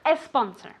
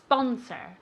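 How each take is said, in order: First: An extra e sound comes before the s. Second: It starts directly with a hissing s sound. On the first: The speaker calls it wrong. "Never, ever, ever a sponsor, okay? I don't want to hear that E" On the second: The speaker calls it right. "It's like a snake"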